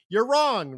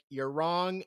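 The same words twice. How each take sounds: First: It is said very loudly. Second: It is said at a normal, quiet volume.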